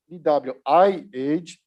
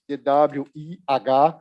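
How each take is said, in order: First: The letters are spelled out with English letter names. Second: The letters are spelled out with Portuguese letter names. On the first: "or even in English" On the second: "spelling it in Portuguese"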